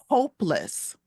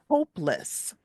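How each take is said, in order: No difference in how they are said.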